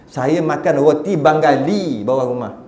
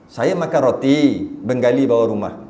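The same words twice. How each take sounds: First: It flows without a pause after roti. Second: There is a pause after roti.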